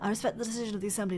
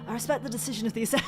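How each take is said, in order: First: It is said in a put-on old man's voice. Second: It is said in a natural, ordinary voice.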